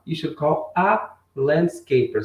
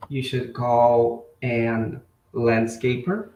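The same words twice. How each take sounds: First: Slow, with a clear short "a" before landscaper; "a" said as a plain open vowel, sentence read slowly; correct article. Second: Slow quiz read with "an" before landscaper; "an" said as a light "en", then landscaper, every word stretched out slowly; wrong article. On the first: Teacher giving the corrected sentence to students, slow and clear. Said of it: "Então, nós usaríamos o A". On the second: Teacher reading the wrong option aloud to students, slow and deliberate. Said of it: "esse an aqui". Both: Shown as a demonstration.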